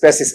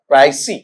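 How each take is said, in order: First: The word ends in an s sound. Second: The word ends in an ee sound. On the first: The speaker calls it wrong. "अपन पैसिस पैसिस पैसिस ऐसा करते फिरते हैं" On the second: The speaker calls it right. "इसका उच्चारण बेटा देखो इस तरीके से जाता है"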